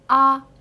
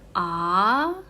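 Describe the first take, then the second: First: The pitch stays level and flat. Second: The pitch rises from low to high. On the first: "the first tones was really flat" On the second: "The second tones is from low to up"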